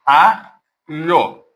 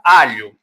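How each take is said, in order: First: "Alho" in two parts, a pause after the A; split into syllables. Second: Said in the usual way. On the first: Shown as a demonstration. Teacher showing students the digraph, "Alho" syllable by syllable. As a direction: break "Alho" slowly as A, pause, lho. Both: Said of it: "ela não separa".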